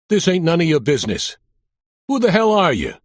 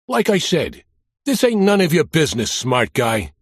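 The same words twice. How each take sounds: First: Put-on thick Brooklyn accent, raised higher and louder; tough-guy Brooklyn, pushing back hard; Sal Ventry's Brooklyn accent. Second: Put-on Brooklyn accent. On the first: Mobster warning off the cop, in a thick Brooklyn accent. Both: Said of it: "with a thick Brooklyn accent".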